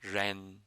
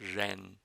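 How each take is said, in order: The two takes are said the same way.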